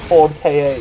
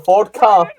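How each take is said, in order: First: The name is spelled out as two letters. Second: The name is said as one word, car. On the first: The speaker calls it wrong. "I used to call it a Ford K A because it was less confusing" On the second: The speaker calls it right. "I think it's supposed to be pronounced car"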